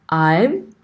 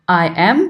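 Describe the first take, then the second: First: It is said as one contracted syllable. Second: It is said as two full separate words. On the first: The speaker calls it right. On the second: The speaker calls it wrong.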